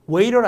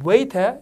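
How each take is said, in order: First: It is said with an American accent. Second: It is said with a British accent.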